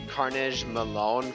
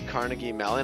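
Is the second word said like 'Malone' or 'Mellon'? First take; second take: Malone; Mellon. First: The second word sounds like 'Malone'. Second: The second word sounds like 'Mellon'. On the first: The speaker calls it wrong. "I was just butchering the pronunciation" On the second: The speaker calls it right. "I finally learned how to pronounce uh"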